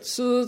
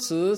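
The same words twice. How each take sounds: First: The pitch stays high and level. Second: The pitch rises from mid to high. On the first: "Four tones of Mandarin" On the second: "Four tones of Mandarin"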